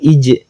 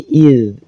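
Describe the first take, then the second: First: The syllable ends with a j sound. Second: The syllable ends with a d sound. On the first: The speaker calls it wrong. "bukan ij" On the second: The speaker calls it right. "tapi id, id di ujung lidah"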